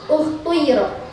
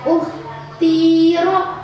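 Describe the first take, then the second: First: The vowel after the t blends u and i. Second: The vowel after the t is i. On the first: "dibaca ismam" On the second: "dibaca kasroh"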